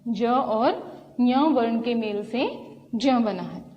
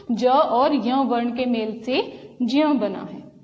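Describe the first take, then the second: No difference in how they are said.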